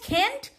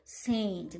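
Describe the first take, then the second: First: The word begins with a hard k sound. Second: The word begins with a soft s sound. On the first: The speaker calls it wrong. "We are telling Kent? No" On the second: The speaker calls it right. "the pronouncing is the sa"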